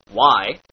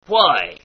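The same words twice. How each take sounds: First: Said in the usual way. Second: "why" said as "hwhy" with breath before the w; pirate hw. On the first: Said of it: "words like". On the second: Shown as a demonstration. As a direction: blow air through the w of "why".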